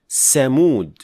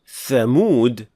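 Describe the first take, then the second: First: It begins with a hissing 's' sound. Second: It begins with a 'th' as in 'think'. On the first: The speaker calls it wrong. "mispronounce it as sin" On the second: The speaker calls it right. "instead of saying thamud"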